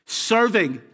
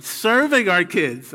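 First: Said in the usual way. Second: Slow, weighty "Serving" with a falling tune; stress on serving. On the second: Shown as a demonstration. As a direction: lean into "Serving" as the right word. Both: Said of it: "Let's use the right word".

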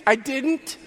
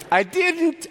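First: I lifted and stressed, rising. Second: Didn't punched hard and falling; stress on didn't. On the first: Pastor repeating, I rising and stressed. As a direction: lean on the word I. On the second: Pastor stressing he held back, didn't falling. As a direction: hit the word didn't. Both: Real, not acted.

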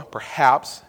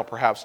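First: "Perhaps" set apart and firmer; stress on perhaps. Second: Said in the usual way. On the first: Real, not acted. Preacher reminding listeners it is only a theory, stressed "Perhaps". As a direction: repeat "Perhaps" on its own with added weight. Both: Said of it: "emphasize that again".

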